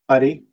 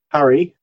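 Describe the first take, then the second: First: The R is a single short tap. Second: The R is a smooth English-like R. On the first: It means maggot or rice. "the short tap" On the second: It means creek or river. "with an R like in English"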